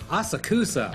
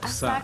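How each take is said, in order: First: The 'u' syllable carries strong emphasis. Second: The 'u' syllable carries little emphasis. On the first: The speaker calls it wrong. "they gaijinized this and said Asakusa" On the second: The speaker calls it right. "not as much emphasis on the U"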